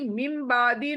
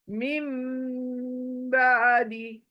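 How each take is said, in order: First: The m is said plainly without a held hum. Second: The m is held with a long nasal hum. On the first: The speaker calls it wrong. "खाली मीम बादी नहीं" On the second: The speaker calls it right. "गुनगुना कर पढ़ेंगे"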